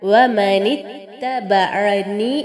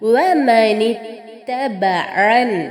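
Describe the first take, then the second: First: The word ends with an i vowel after n. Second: The word ends on a bare n sound. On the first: This is the form as written in the text. "എന്നാണ് നമുക്കവിടെ കാണാൻ സാധിക്കുന്നത്" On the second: The reciter stops at this point. "ഇവിടെ നിർത്തുന്ന സമയത്ത് കിസ്റയോട് കൂടിയ നൂനിനെ സുക്കൂനുള്ള നൂനാക്കി മാറ്റണം"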